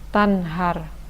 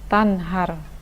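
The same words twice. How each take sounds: The two takes are said the same way.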